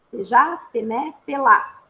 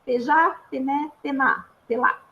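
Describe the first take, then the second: First: "Pejá, pené, pelá" said faster as one run, last syllable "pelá" louder; Língua do P demo, repeated. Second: "pejá, pené, pená, pelá" with a P syllable before each syllable of janela; Língua do P demo. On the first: ("Pejá, pené, pelá" mais corrido, com "pelá" mais forte no fim) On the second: ("pejá, pené, pená, pelá" dito devagar, sílaba por sílaba, com pe antes de cada uma) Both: Shown as a demonstration. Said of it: "se eu vou falar janela".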